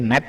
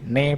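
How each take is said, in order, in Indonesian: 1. Kata itu berakhir dengan bunyi t. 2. Kata itu berakhir dengan vokal, tanpa t. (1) "Jadi net jadi ne bonce" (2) "disingkat ya teman-teman"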